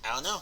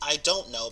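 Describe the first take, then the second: First: The words blend into a shortened contraction. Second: Every word is said fully and clearly. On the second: "instead of saying I don't know"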